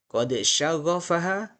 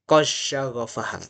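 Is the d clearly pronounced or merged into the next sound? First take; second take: clear; merged. First: The d is pronounced clearly before the next consonant. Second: The d merges fully into the following consonant. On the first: "Pertama saya baca idhar" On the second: "yang kedua akan saya ulangi dengan membaca idgham"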